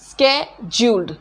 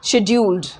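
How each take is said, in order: First: The word begins with an sk sound. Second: The word begins with an sh sound. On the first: "ये American pronunciation होता है स्केड्यूल्ड" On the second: "British pronunciation"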